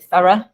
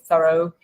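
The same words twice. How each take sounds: First: It is said with a British accent. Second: It is said with an American accent. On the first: "in English with a British accent we say thorough" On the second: "in an American accent ... they say thorough"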